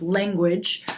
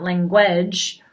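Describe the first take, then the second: First: Said in the usual way. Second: "language" with the stress wrongly on "guage", lan-GUAGE; stress on second syllable. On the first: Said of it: "the stressed syllable is lang". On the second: Shown as a demonstration. Teacher showing students misplaced stress, "language" stressed on its last syllable. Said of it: "because it's not language".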